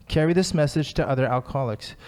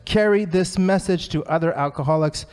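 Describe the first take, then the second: First: Said in the usual way. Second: Lightly raised, emphatic read; mock yell. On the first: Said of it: "yelling it". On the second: Reading Bill's line to the meeting as a mild mock yell. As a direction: proclaim it like Bill shouting. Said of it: "Bill is yelling it".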